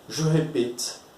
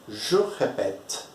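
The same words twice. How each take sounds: First: The second vowel of répète is a closed e. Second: The second vowel of répète is an open e. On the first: The speaker calls it wrong. "Imagine se fosse conjugar com uma acentuação aguda" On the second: The speaker calls it right. "a gente vai colocar o acento grave para mudar essa fonética"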